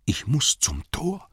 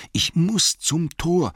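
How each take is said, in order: First: High, slow anxious hobbit voice; Bilbo muttering to himself. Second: Higher, slower, louder desperate repeat; Bilbo urging himself. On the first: Bilbo to himself among the orcs, high anxious plea. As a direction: urge yourself on in panic. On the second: Bilbo repeating to himself, desperate and higher. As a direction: press harder, near pleading. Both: Acted. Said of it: "sagte er sich immerzu".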